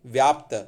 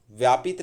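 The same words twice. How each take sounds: First: व्याप्त with P and T together, loud; correct form व्याप्त. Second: व्यापित with I before त; wrong form व्यापित. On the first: Teacher corrects व्यापित, loud correct form. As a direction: say व्याप्त, vyaapt, no I. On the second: Teacher rejects the wrong word, mistaken form. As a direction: say व्यापित, vyaa-pit. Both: Shown as a demonstration. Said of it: "व्यापित नहीं".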